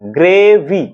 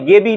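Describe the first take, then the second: First: The word is said with the r sound. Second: The word is said without the r sound. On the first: The speaker calls it right. "ওটাকে বলে গ্রেভি" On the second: The speaker calls it wrong. "ওটা গেবি নয়"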